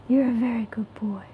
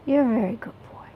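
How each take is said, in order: First: Whispering to cat. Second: Said in the usual way. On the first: Real, not acted. Owner whispering praise to her cat. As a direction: breathe it to the kitty.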